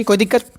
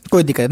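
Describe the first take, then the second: First: कोई दिक्कत asked with a rising end; questioning check. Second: कोई दिक्कत with a low, falling end; settled statement. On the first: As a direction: lift दिक्कत into a question for the class. Asks class, then answers himself. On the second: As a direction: drop कोई दिक्कत low, closing the question. Answers his own check question. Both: Real, not acted.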